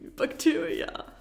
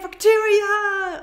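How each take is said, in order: First: It is said in a wary, disgusted tone. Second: It is said in a happy, excited tone. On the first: Bacteria are dirty and should be removed. "Or do you feel like, mm, ... I want to clean my hands" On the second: Bacteria are welcome and good. "Do you feel like, yay"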